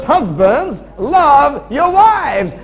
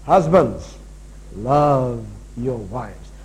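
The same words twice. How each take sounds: First: Loud, high, drawn-out preaching; shouted command. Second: Low, drawn-out, deliberate scripture quote; slow, weighty command. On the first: Preacher driving the unchanged verse at husbands, shouted command. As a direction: belt out each word slowly. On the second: Preacher handing husbands their order, slow and weighty. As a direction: set each word down slowly, pitched low. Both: Real, not acted.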